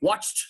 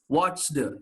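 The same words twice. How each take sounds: First: The ending is a voiceless t sound. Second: The ending is a voiced d sound. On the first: The speaker calls it right. "Make it voiceless" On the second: The speaker calls it wrong. "You should not pronounce"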